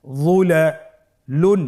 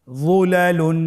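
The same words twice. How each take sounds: First: "যুলালুন" broken into parts, pausing before the ending; ভেঙে ভেঙে পড়া. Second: "যুলালুন" as one unbroken word, higher-pitched; joined-up reading. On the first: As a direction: say "যুলালুন" slowly, piece by piece. ("যুলালুন" থেমে থেমে, ভেঙে ভেঙে) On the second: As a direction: recite "যুলালুন" whole, without pauses. ("যুলালুন" না ভেঙে একটানে) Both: Shown as a demonstration. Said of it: "বানান ছাড়া ভেঙে ভেঙে পড়তে হয়".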